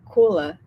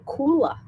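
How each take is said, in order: First: Said in the usual way. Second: Kula said the Aussie way, pitched higher; Australian accent. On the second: Retold or imitated. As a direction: echo the guest's Australian Kula. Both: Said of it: "not the strange, but the accent".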